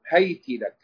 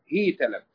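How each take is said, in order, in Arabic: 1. تأخذ h الحركة a وتأخذ t الحركة i. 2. تأخذ h الحركة i وتأخذ t الحركة a. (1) "بفتح أوله وكسر آخره" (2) "بكسر أوله وفتح آخره"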